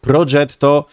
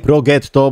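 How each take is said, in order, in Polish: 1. G jest miękkie, jak angielskie j. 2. G jest twarde, jak w angielskim go. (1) "to jest Progetto" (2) "a nie Progetto"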